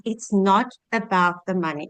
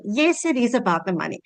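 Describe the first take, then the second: First: NOT picked out in "it's not about the money"; stress on NOT. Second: IS picked out after a firm "Yes"; stress on IS. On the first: Single mom quoting her mentor's line, stress on NOT. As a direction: lean on "not", then let the phrase fall. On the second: Single mom admitting money matters, stress on IS. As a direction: counter it, leaning on "is", then fall. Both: Real, not acted. Contradicts herself for effect.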